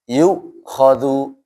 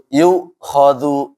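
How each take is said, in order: The two takes are said the same way.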